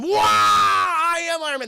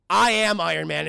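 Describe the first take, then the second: First: High, loud, slow excited shout; hyped exclamation. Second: Louder, weighty reveal line; dramatic reveal. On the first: Real, not acted. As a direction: shout it in awe and hype. Streamer hyping the line. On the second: Retold or imitated. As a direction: deliver the big reveal with weight.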